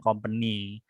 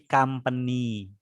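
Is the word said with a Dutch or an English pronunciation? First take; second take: Dutch; English. First: It is said the Dutch way, following its spelling. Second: It is said the English way, starting like 'kam'. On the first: The speaker calls it wrong. "bukan company" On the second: The speaker calls it right. "tapi company"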